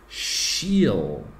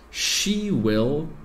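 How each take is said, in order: First: The two words merge into one short syllable. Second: Both words are said fully and separately.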